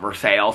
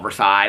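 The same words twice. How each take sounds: First: It is said the local Indiana way. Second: It is said the common, familiar way. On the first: This is how the town's locals say the name. "but they call it Versailles" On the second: This is how most people say the name. "we would all call Versailles"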